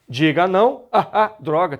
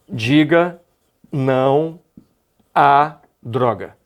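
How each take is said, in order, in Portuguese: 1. As vogais a são repetidas separadamente, como uma gagueira. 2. As duas vogais a se fundem em um único som. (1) "eu terei que pronunciar a expressão gaguejando" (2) "se eu não fizer a fusão das duas vogais"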